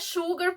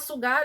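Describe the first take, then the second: First: The word is said with English sounds. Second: The word is read with Portuguese sounds. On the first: This follows the English word the name comes from. The speaker calls it right. "muito provavelmente a pronúncia é sugar, porque é exatamente a mesma escrita da palavra açúcar em inglês" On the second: This is how most people say the name. The speaker calls it wrong. "como todo mundo fala Sugar"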